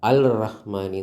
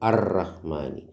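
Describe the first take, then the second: First: An 'l' sound is heard before 'rahmani'. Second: A doubled 'r' replaces the 'l' sound. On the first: The speaker calls it wrong. "എന്ന് പറയൂല" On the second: The speaker calls it right. "ലാം ഉച്ചരിക്കൂല"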